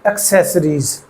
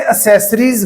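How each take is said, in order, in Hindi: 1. "s" से पहले "k" की आवाज़ आती है। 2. डबल "c" सिर्फ़ "s" जैसी आवाज़ देता है। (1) "एक्सेसरीज ये हार्ड साउंड, ये सॉफ्ट साउंड" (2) "अब ये एक्सेसरीज गलत है"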